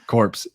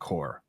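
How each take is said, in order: First: The final p and s sounds are pronounced. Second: The final p and s sounds are silent. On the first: The speaker calls it wrong. "Did I say core? Corpse, yeah" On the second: The speaker calls it right. "It's it's receiving core"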